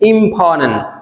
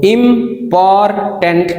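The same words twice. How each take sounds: First: The t after n is dropped. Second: The t after n is clearly pronounced. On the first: "हम बोलेंगे" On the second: "इम्पॉर्टेंट की जगह पे"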